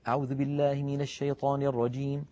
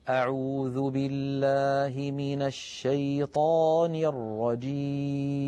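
First: It is recited quickly. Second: It is recited slowly and calmly.

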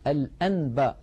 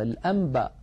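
First: The n before b is a clear n. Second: The n before b turns into an m. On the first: The speaker calls it wrong. "ولا يقول الواحد الأنباء" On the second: The speaker calls it right. "الإنسان بفطرته يا إخوة يقلب النون الساكنة إذا أتى بعدها باء إلى ميم"

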